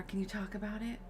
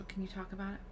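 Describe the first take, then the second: First: Said in the usual way. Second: Softer, gentle question; concerned. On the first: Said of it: "My options are". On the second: Acted. Player asks Alfie about his memory, soft concern. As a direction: ask softly, with care. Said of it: "I'm gonna be concerned".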